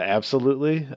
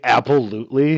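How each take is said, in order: First: The word starts with a plain 'ab' sound. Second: The word starts with an 'apple' sound. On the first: It is the ordinary word with no pun. The speaker calls it right. "instead of absolutely" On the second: It makes a pun on apple. The speaker calls it wrong. "saying absolutely"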